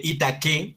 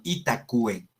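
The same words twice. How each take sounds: First: "Itaque" as i-ta-ke, no w; rising "Itaque" with plain k; wrong reading. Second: "Itacue" as i-ta-kwe; falling "Itacue" with kw; Latin itaque. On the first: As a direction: say "Itaque" Spanish style, i-ta-ke. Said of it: "No se lee Itaque". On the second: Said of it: "sino Itacue". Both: Shown as a demonstration.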